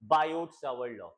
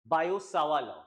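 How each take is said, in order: First: The final t sounds of both names are pronounced. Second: The final t sounds of both names are dropped. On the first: This is how people in India usually say it. The speaker calls it wrong. "जैसे हम हिंदुस्तानी बोलते हैं, Indians बोलते हैं" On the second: This is the actual pronunciation of the name. The speaker calls it right. "Actually में इसका pronunciation है"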